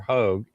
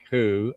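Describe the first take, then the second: First: The name is said with a long o, like 'hoag'. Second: The name is said as a bare 'who' sound. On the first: "or Hogue" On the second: "it's not pronounced like who"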